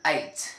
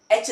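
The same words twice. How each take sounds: First: एच said lower as the English letter; right way. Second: एच said with a "ch" ending; एच as learners say it; a hint of the wrong एच. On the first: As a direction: model एच with a falling tune. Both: Shown as a demonstration. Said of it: "मतलब एच नहीं होता".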